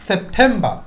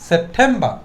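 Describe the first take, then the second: Both takes have the same delivery.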